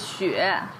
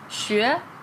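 First: The syllable is said with the third tone. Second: The syllable is said with the second tone. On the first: It means snow. "so that's third tone" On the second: It means to study. "second tone"

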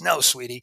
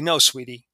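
First: The voice is rough and gravelly. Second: The voice is plain and smooth.

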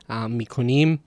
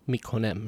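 First: The last syllable has an 'ee' vowel. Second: The last syllable has an 'eh' vowel. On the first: "in Iran, it's im" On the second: "While in Dari and Tajik, it's em"

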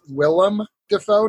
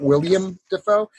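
First: The first name ends in a short 'lem' sound. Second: The first name ends in a 'liam' sound. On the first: The speaker calls it right. "it is Willem Dafoe" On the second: The speaker calls it wrong. "not William Dafoe"

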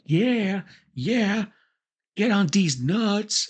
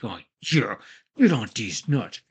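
First: It is said in a friendly, upbeat tone. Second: It is said in a forward, aggressive tone.

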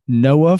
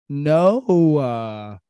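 First: The name is said in a plain, ordinary voice. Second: The name is said in a put-on teenage-girl voice. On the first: "Noah from the Bible" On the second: "like how a teenage girl says it"

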